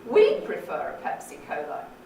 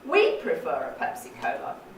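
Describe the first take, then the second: First: The main fall is on the word we'd. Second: The main fall is on the word we'd.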